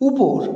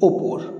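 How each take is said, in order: First: The first vowel is a u sound. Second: The first vowel is an o sound.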